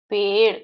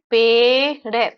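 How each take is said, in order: First: Said in the usual way. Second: पेड़ है drawn out as a long, loud "pee", then "de"; sound by sound. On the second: Shown as a demonstration. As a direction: sound out पेड़ है slowly in two separate parts. Teacher breaks word into sounds.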